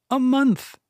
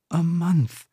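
First: A short, high, firm "A month"; Finta's answer. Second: Voluptuary's stunned echo. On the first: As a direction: state it plainly and brightly, a little higher. Finta answers, voluptuary repeats. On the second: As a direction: let it land, half to herself. Voluptuary repeats, absorbing the news. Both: Acted.

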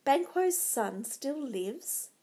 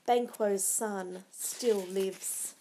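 First: Slow, lifting into a question; troubled thought. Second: Very slow, falling delivery; grave bad news. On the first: Macbeth brooding to himself over the news, troubled. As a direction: turn the news over slowly, unresolved. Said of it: "he thought". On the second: Murderer reporting failure to Macbeth, gravely. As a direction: break the bad news slowly and finally. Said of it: "The reply was shattering". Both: A narrator's reading.

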